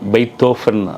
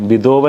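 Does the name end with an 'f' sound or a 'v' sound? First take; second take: f; v. First: The last syllable begins with an 'f' sound. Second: The last syllable begins with a 'v' sound. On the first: The speaker calls it right. "വി ഒക്കെ എഫ് ആണ്" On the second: The speaker calls it wrong. "തെറ്റാണ് ഉച്ചാരണം"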